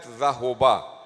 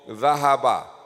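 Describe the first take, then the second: First: The middle vowel is 'u'. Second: The middle vowel is 'a'. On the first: The speaker calls it wrong. "This is not zahoba" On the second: The speaker calls it right. "Maftuhul ain"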